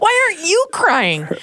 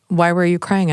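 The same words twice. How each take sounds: First: High, mock-exasperated retort; incredulous comeback. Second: Said in the usual way. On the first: Wife throwing the question back at her husband, mock-incredulous. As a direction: turn it back on him in a soaring pitch. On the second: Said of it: "he asks me later through his adaptive devices".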